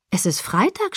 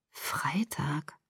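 First: Said in the usual way. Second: Whispered, low echo of "Freitag"; dazed whisper. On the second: Acted. Daughter realizing how long she slept, dazed whisper. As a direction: breathe "Freitag" to yourself, barely voiced.

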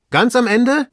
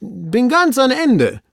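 First: High, loud, rising question; master's excited query, rising on Ende; astonished echo. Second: High, slow, drawn-out report; servant's falling, called-out statement; servant calling down. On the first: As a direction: echo it back in disbelief. Master echoes the report, astonished. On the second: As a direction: announce it from far out on the branch. Servant reports from branch end. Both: Acted.

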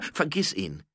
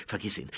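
First: Higher-pitched, firm dismissal; insistent order. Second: Said in the usual way. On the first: Acted. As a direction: cut off the protest insistently. Repeated order over the protest. (nachdrücklicher, höherer Befehl)

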